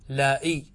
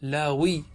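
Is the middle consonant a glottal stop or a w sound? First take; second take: glottal stop; w sound. First: The middle consonant is a glottal stop. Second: The middle consonant is a w sound. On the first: "أبدلنا الثانية همزة" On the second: "ويجوز قلب الهمزة واوا"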